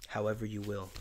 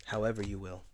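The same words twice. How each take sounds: The two takes are said the same way.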